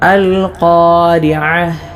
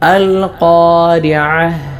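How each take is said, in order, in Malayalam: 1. ഈ വാക്ക് h ശബ്ദത്തിലാണ് അവസാനിക്കുന്നത്. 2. ഈ വാക്ക് h ശബ്ദത്തിലാണ് അവസാനിക്കുന്നത്.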